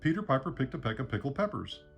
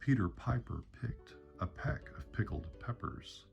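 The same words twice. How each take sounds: First: It is said at a fast pace. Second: It is said at a slower pace.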